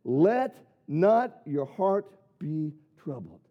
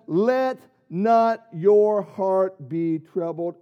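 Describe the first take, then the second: First: Slow and low, stress on not; grave slow reading; lower slow quote. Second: Slow, solemn, every word weighed; solemn slow reading; slow scripture quote. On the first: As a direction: lean on not, slowly. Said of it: "Jesus said". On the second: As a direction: lay it down slowly like a verse. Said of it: "Jesus says". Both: Acted.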